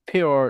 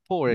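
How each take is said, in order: First: A 'y' glide follows the p sound. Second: A plain 'o' vowel follows the p sound. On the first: The speaker calls it right. "পিওর পিওর not পোর" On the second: The speaker calls it wrong. "নট পোর"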